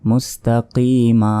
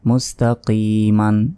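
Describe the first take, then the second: First: The word ends on a vowel, no n. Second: The word ends with an n sound. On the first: The reader stops at this word. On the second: The reader continues without stopping.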